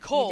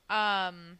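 First: The name is said with an 'oh' vowel. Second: The name is said with an 'ay' vowel. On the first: The speaker calls it wrong. "I pronounce his name as Cole" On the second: The speaker calls it right. "Informed me that I was pronouncing it wrong"

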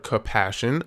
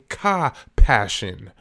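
First: The word begins with an ordinary 'com' sound. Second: The word begins with a separate 'ka' sound. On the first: The ordinary word for sympathy. The speaker calls it wrong. "I'm not saying compassion" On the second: Vital life force joined with deep feeling. The speaker calls it right. "I'm saying ka-passion"

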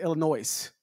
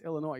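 First: The final s sound is pronounced. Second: The final s sound is silent. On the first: The speaker calls it wrong. "I would pronounce it" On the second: The speaker calls it right. "No, it's Illinois. You drop it"

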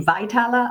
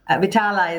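First: The name is said with an English pronunciation. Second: The name is said with an Italian pronunciation. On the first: "Maybe in English it would be Vitala" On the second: "Vitala is, I suppose, the Italian pronunciation"

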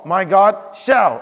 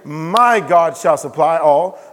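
First: The stress is on "shall". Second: The stress is on "My".

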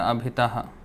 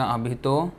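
First: The word ends with an 'aha' sound. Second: The word ends with a plain 'o' sound. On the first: The word stands alone in its pure form. "we chant the pure form of the word" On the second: The word is joined to the next word in the verse. "This is Sandhi, rules of joining and division"

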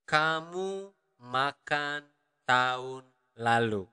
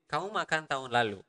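First: The sentence is spoken slowly and carefully. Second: The sentence is spoken at natural conversational speed.

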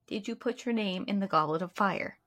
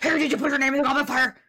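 First: It is said in a calm, quiet way. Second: It is said in an angry, agitated way.

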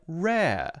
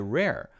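First: The final R is open, not curled. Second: The final R is curled and clear. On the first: "is instead more open, like rare" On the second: "Americans say rare"

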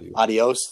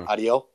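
First: The final s sound is pronounced. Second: The final s sound is left off. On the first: "instead of saying" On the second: "They just drop the S"

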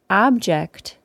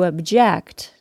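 First: The stress is on the first syllable. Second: The stress is on the second syllable. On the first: It means a thing. "An object is a noun, meaning a thing" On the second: It means to protest something. "To object is a verb, meaning to protest something"

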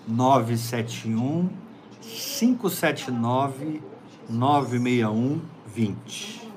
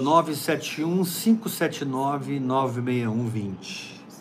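First: The number is said slowly. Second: The number is said fast.

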